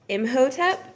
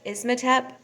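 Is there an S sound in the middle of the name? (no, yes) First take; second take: no; yes. First: The name has no S sound in the middle. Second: The name has an S sound in the middle. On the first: The speaker calls it right. "there's not an S" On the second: The speaker calls it wrong. "I totally butchered that. ... I put an S in there"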